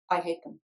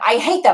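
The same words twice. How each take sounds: First: It sounds like slow, deeply felt hatred. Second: It sounds like quick, repeated, reactive rage. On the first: The anger reaches the truth of real hatred. "the depth of their their real hatred" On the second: The anger keeps them stuck in an old pattern. "stuck on a hamster wheel of anger and rage"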